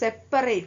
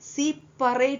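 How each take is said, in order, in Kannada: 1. ಮೊದಲ ಸ್ವರ 'e' ಥರ ಇದೆ, 'set' ಹಾಗೆ. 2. ಮೊದಲ ಸ್ವರ 'i' ಥರ ಇದೆ, 'see' ಹಾಗೆ. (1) "ಓದೋದು ಸೆಪರೇಟ್ ಅಂದೆ" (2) "ಸಿಪರೇಟ್ ಅನ್ನು ಓದುವುದಿಲ್ಲ"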